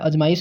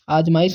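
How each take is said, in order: First: The first vowel is short. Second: The first vowel is long. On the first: The speaker calls it wrong. "अजमाइश नहीं होता है" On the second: The speaker calls it right. "आजमाइश होता है"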